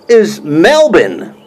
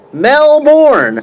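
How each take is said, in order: First: Melbourne said slowly as Melbin, no R; dropped-R Melbourne. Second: Melbourne mocked, higher, the R dropped; Aussie Melbourne. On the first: Mocking how the YouTuber says Melbourne. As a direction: drag out is Melbin with the R gone. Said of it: "What I hear". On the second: Teasing the YouTuber, Melbourne said Aussie style. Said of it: "You're from Melbourne". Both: Shown as a demonstration.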